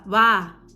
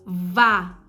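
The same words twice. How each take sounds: First: It begins without a clear v sound. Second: It begins with a clear v sound. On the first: The speaker calls it wrong. "ele fala vá" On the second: The speaker calls it right. "ele não fala vá"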